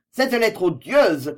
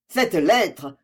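First: "cette lettre odieuse" slow and louder, leaning on "cette"; slowed, weighted repeat of "cette lettre odieuse"; emphatic repeat. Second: Said in the usual way. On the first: A narrator's reading. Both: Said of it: "commença-t-il".

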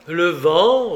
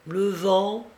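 First: Loud, falling, challenging echo; incredulous echo. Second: High, rising Felipe reply; evasive answer. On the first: Guest challenges Felipe's excuse for the cries, incredulously. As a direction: throw the words back in disbelief. Narrator repeats Felipe's answer in disbelief. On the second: Felipe dodges the guest's question about cries, evasively. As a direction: answer lightly, pitch lifted and left hanging. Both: A narrator's reading.

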